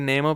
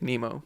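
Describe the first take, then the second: First: The name is said with Swiss German pronunciation. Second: The name is said with English pronunciation. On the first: "in Swiss German I say Nemo" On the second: "in English I say Nemo"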